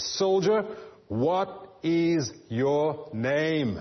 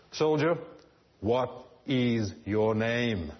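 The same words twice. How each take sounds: First: Soldier barked high and loud, then very slow; a furious emperor spelling out each word; fierce demand. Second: A commander turning hard, dragging out each word; hard, stern. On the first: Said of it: "with a fierce look and says". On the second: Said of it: "his face becomes hard". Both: A narrator's reading.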